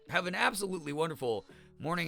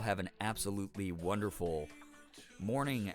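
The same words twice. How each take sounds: First: It is spoken at a louder, fuller volume. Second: It is spoken at a softer, quieter volume. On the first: The speaker calls it wrong. "Oh my God, this is so bad" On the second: The speaker calls it right. "let me talk a little bit softer"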